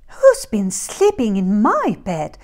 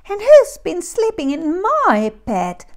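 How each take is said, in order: First: It is said in a quieter voice. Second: It is squeaked in a high voice.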